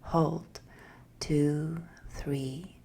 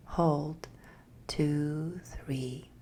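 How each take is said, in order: Both takes have the same delivery.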